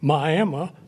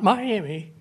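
First: Miami is pronounced the old local way. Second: Miami is pronounced the standard modern way. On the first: This is how locals said the name long ago. The speaker calls it right. "That's the way we all said it back then" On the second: This is how the name is commonly said now. The speaker calls it wrong. "Not Miami"

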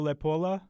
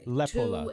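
First: The stress is on the syllable po. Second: The stress is on the syllable le. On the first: The speaker calls it wrong. "He had the po, I thought, at the end" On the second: The speaker calls it right. "The emphasis is on the le, they say"

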